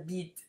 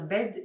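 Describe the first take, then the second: First: It is said in a New Zealand accent. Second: It is said in a standard accent.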